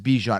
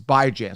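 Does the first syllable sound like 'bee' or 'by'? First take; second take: bee; by. First: The first syllable sounds like bee. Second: The first syllable sounds like by. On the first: The speaker calls it wrong. "Anyone who thinks that it's Bijan, it's not" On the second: The speaker calls it right. "It's Bijan. So get that right"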